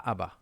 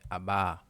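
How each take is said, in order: First: The final vowel is short. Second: The final vowel is lengthened. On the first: The speaker calls it wrong. "Pas aba" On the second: The speaker calls it right. "mais aba"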